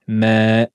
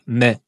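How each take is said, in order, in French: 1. La voyelle se prolonge sur deux temps. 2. La voyelle est brève. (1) "en deux temps" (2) "on ne dira pas"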